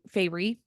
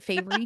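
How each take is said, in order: First: The name sounds like the word fairy. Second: The name ends in a separate ruh syllable. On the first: "I always call her Fey Feyre. I don't know why, like a fairy" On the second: "but Feyre"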